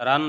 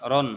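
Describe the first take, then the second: First: রান with a long open a, the wrong way; রান said like ran, marked wrong; wrong long vowel. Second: রন with a short o, the right way; রন said as ron, marked right; correct short vowel. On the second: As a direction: clip it to রন, short o. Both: Shown as a demonstration. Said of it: "রান বলা যাবে না".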